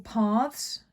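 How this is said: It is said in a southern English accent.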